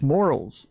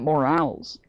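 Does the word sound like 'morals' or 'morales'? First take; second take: morals; morales. First: It is said like the word moral. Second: It is said like the word morale. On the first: The speaker calls it right. "It's morals, There's no E. Moral" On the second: The speaker calls it wrong. "not morals. Not morale"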